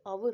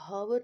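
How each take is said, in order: First: The word starts with a vowel, h silent. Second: The word starts with an audible h sound. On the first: The speaker calls it right. "ये आवर होगा, क्योंकि ओ sound आएगी" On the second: The speaker calls it wrong. "तो हावर नहीं होगा"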